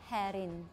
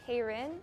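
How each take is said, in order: First: The name is said in a Thai way. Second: The name is said in an American way. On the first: "In Thailand, we say" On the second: "In America, they might say"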